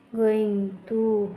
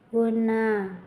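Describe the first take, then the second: First: Each word is said fully and separately. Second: The words are run together into two syllables.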